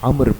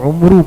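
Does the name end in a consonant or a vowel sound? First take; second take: consonant; vowel. First: The name ends on an r consonant. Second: The name ends on an oo vowel. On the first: The speaker calls it right. "अम्र पढ़ेंगे" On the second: The speaker calls it wrong. "बहुत सारे लोग इसको उम्रू पढ़ते हैं"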